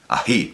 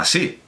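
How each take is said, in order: First: The middle consonant is a breathy h sound. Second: The middle consonant is a clear s sound. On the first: It is a dialectal pronunciation. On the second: It is the standard pronunciation.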